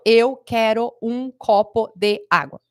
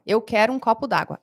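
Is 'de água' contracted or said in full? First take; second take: full; contracted. First: "De" and "água" are said as separate words. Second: "De" and "água" merge into one "d'água". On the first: The speaker calls it wrong. "a gente não fala" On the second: The speaker calls it right. "É isso que a gente fala"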